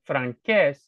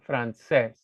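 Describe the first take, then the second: First: The middle consonant is a hard k sound. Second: The middle consonant is a soft s sound. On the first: The speaker calls it wrong. "So it's not franqués" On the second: The speaker calls it right. "the E and the I make the C soft"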